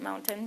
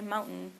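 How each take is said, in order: First: The T in the middle is clearly pronounced. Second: The T in the middle is dropped. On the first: This is how people think they say it. "we pronounce it mountain, but we really don't" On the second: This is how people actually say it. "We say mountain. Like there's no T there"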